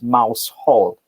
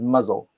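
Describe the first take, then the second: First: The name is said as written, Mouse Hall. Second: The name is reduced to sound like Muzzle. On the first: "literally the name is Mouse Hall" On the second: "they pronounce it Muzzle"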